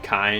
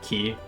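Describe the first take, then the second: First: The word is said like 'kai', rhyming with 'eye'. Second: The word is said like 'key', rhyming with 'see'. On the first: "don't pronounce the Kai part of it Kai" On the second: "they instead pronounce it Ki"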